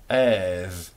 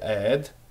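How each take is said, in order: First: It is said the ancient Israelite way. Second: It is said the modern Israeli Hebrew way.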